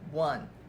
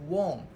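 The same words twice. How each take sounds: First: The word sounds exactly like 'one'. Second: The word does not sound like 'one'. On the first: The speaker calls it right. "The correct pronunciation is won. Just like this word, won" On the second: The speaker calls it wrong. "A lot of my students used to pronounce as won, which is wrong"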